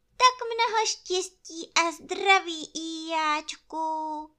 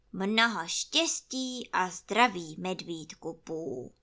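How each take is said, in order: First: High, bright-hearted wish from the bear; cheerful bear greeting. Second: Gloomy donkey wishes. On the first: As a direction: sing out the good wishes. Pú gratuliert hoch. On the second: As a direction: grumble out the greeting. Ijáček gratuliert mürrisch. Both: Acted.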